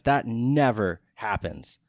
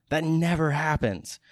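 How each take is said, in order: First: Said in the usual way. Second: "never" lifted high and slow; stress on never. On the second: Shown as a demonstration. Marvelling to listeners that friends locked a date, stressing "never". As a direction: lean hard into "never", amazed.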